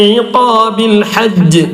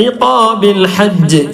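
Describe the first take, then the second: The two takes are said the same way.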